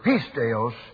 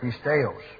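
First: The stress falls on the first syllable. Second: The stress falls on a later syllable. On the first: "when you move this accent to that first part of the letter, or part of the word" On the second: "normally you would pronounce with the accent over here"

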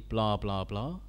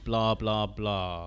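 First: The pitch stays level throughout. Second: The pitch falls at the end. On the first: "it can stay the same the whole way through" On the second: "have it go down at the end"

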